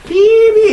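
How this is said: It is said with the teeth together, sounding muffled. The speaker calls it wrong. "이러면 안 되는 거예요"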